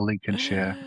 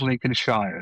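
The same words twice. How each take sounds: First: The ending is reduced to a short 'sher'. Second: The ending is a full 'shire' like spelled. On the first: The speaker calls it right. "but we say Lincolnshire" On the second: The speaker calls it wrong. "No one says Lincolnshire, so don't say Lincolnshire"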